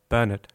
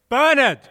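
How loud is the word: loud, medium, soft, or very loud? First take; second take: medium; very loud. First: The word is said at medium volume. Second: The word is said very loudly.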